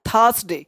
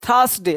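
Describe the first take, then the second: Both takes have the same delivery.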